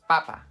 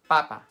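The two takes are said the same way.

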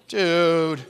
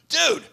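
First: It sounds dismayed and disappointed. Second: It sounds like a casual friendly greeting.

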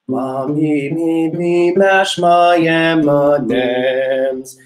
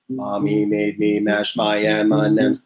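First: The pitch moves upward through the phrase. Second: It is said on one flat pitch.

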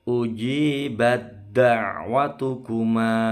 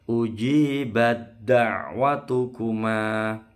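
The two takes are said the same way.

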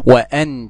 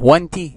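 First: The glottal stop before anta is clearly pronounced. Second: The glottal stop before anta is dropped. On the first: The speaker calls it right. "لازم أثبتها" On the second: The speaker calls it wrong. "ينفع أسقطها؟ وأنت لا"

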